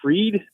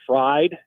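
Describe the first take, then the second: First: The vowel sounds like the one in 'seed'. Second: The vowel sounds like the one in 'side'. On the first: The speaker calls it right. "but they call him Freed" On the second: The speaker calls it wrong. "I pronounce it as Fried"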